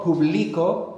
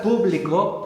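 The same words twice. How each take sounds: First: "publico" as poo-BLEE-ko, pitched up; middle-syllable stress. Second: "público" as POO-blee-ko; first-syllable stress. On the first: Teacher contrasts the accent, "publico" stressed in the middle. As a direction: punch BLI in "publico". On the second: Teacher contrasts the accent, "público" stressed at the start. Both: Shown as a demonstration. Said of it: "the accent's very important in Spanish".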